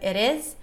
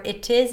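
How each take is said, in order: First: The T is a quick, light flap sound. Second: The T is a crisp, true T sound. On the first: "instead of" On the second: "if you don't use the flap T"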